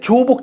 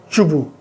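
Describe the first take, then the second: First: It is read with Korean character pronunciation. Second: It is read with Mandarin character pronunciation. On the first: The speaker calls it wrong. "그거는 한자 발음을 한국 발음을 읽은 거고" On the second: The speaker calls it right. "중국 애들 쓰는 한자 발음을 읽으면 조복이 아니라 주부입니다"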